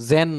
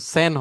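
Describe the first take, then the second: First: The word begins with a buzzing z sound. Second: The word begins with a hissing s sound. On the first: The speaker calls it wrong. "জেন না" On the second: The speaker calls it right. "এটা তো সেন হবে"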